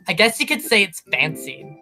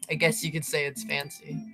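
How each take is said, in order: First: The line is read with expressive character tone. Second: The line is read flatly, without expression. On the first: The speaker calls it right. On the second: The speaker calls it wrong.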